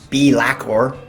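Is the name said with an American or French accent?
American. It is said with a broad American accent.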